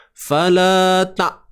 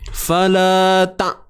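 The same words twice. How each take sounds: First: The final sound is cut off abruptly. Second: The final sound is cut off abruptly.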